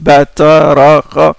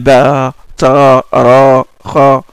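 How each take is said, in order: First: The vowels are said short. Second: The vowels are drawn out long.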